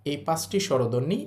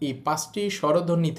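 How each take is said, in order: Both takes have the same delivery.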